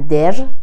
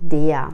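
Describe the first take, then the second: First: The word ends with a clearly pronounced r. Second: The word ends in a soft 'ia' glide. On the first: The speaker calls it wrong. "نمیگن در" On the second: The speaker calls it right. "میگن دیا"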